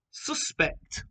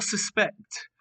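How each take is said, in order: First: "suspect" as a noun, SUS-pect; noun stress. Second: "suspect" as a verb, sus-PECT; verb stress. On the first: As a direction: stress the first syllable of "suspect". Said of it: "Both spelt the same". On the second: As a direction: stress the second syllable of "suspect". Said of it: "but the verb form". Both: Shown as a demonstration.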